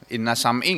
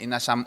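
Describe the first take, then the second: First: The second word ends in an i vowel. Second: The second word ends in a u vowel. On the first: "enggak mungkin" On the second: "juga enggak mungkin"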